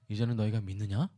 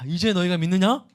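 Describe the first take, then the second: First: The question sounds doubtful and skeptical. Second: The question sounds warm and pleased. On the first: The asker questions whether the belief is real. "진짜냐?" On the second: The asker is glad the listeners finally believe. "흐뭇하게"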